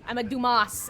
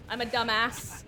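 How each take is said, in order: First: "Dumas" said as French "too-MAH", loud and falling; mock-posh French "Dumas"; fancy pun. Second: Said in the usual way. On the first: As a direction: pronounce "Dumas" the French way, grandly. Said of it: "if you will". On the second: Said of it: "I'm a Dumas, if you will".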